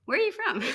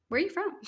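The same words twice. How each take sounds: First: High, laughing eager question; even keener the second time; bursting to ask an American; extra eager. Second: Eager question. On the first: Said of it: "Especially if they're American". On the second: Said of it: "I'm like". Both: Retold or imitated.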